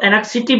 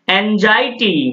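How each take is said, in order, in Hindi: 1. बीच का व्यंजन 'ks' जैसा लगता है। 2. बीच का व्यंजन 'z' जैसा लगता है। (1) "इसको एनेक्सिटी बिल्कुल मत पढ़ना" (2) "इसको इस तरह से उच्चारण करोगे"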